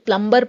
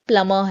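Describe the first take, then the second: First: The b sound is pronounced. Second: The b sound is silent. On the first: The speaker calls it wrong. "बहुत लोग pronunciation में गलती कर देते हैं, इसे प्लम्बर पढ़ देते हैं" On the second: The speaker calls it right. "बी silent होता है"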